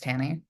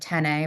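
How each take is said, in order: First: The name ends with an 'ee' sound. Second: The name ends with an 'ay' sound. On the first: The speaker calls it right. "but it's Tanny" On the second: The speaker calls it wrong. "I can say it's like ten A"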